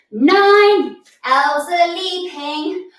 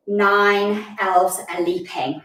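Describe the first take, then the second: First: Higher, slow sung line; singing. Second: Said in the usual way. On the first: Shown as a demonstration. Teacher sings the new elf leap line, singing. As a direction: sing it out with held notes.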